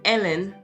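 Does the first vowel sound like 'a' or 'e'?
e. The first vowel sounds like 'e' in 'bed'. "they wouldn't say the name Ellen"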